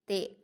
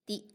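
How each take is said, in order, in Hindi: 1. स्वर एक नीचा 'ay' जैसा है। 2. स्वर एक साफ़, ऊँचा 'ee' जैसा है। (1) "ये मजहूल हो जाता है" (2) "इस तरह आप पढ़ेंगे तो ये मारूफ होगा"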